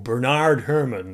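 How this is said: The name is said in an American way.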